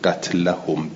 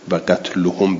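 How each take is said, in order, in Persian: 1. مصوت بعد از qatl، a است. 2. مصوت بعد از qatl، u است. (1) "به نسب" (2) "به رفع"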